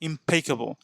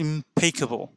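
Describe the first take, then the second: No difference in how they are said.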